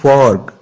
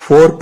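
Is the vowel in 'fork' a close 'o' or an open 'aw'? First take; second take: open aw; close o. First: The vowel is an open 'aw' sound. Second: The vowel is a close, ordinary 'o' sound. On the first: The speaker calls it right. "बल्कि पढ़ना है फॉर्क" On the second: The speaker calls it wrong. "जैसे आम routine में ओ को पढ़ा जाता है, फोर्क नहीं पढ़ना"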